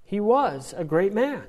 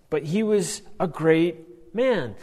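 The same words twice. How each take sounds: First: "was" lifted as the peak word; stress on was. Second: "was" pressed slow and firm; stress on was. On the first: Teacher repeating line with "was" stressed. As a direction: hit "was" in "He was a great man". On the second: Teacher stressing "was" for students, slow emphatic. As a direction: lean hard on "was" in "he was a great man". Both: Shown as a demonstration. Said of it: "with the emphasis on was".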